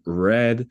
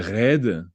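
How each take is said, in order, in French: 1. C'est un R à l'américaine. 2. C'est un R à la française. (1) "le R américain de red" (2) "le R français de red"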